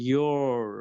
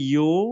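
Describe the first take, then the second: First: Said in an American accent with the r. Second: Said in a British accent without the r. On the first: "আমেরিকানরা বলে ইয়োর" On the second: "ব্রিটিশরা বলে ইউ"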